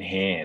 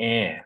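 First: The word begins with an h sound. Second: The word begins with a vowel sound. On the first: The speaker calls it wrong. "ไม่ใช่" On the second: The speaker calls it right. "อ้ออ่านเนาะ"

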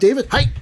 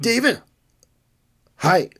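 First: Hi follows the name almost at once. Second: There is a long gap before hi.

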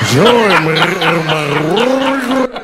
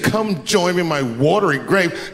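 First: It is said with a rolling, gurgling throat. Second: It is said in a plain voice.

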